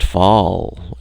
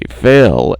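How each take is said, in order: First: The vowel sounds like the one in 'all'. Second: The vowel sounds like the one in 'ail'. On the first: This is the name as outsiders say it. "being pronounced Fall" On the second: This is the name as the family says it. "conditioned us to say Fail"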